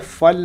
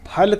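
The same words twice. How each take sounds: First: The word begins with an f sound. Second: The word begins with a breathy p sound. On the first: The speaker calls it wrong. "फल नहीं कहेंगे" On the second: The speaker calls it right. "फल कहेंगे"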